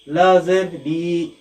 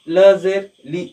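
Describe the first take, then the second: First: The final vowel is long and drawn out. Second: The final vowel is short, not drawn out. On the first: The speaker calls it wrong. "तुलबा यहाँ पर भी गलती करते हैं" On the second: The speaker calls it right. "आवाज को जो है नहीं खींचना है"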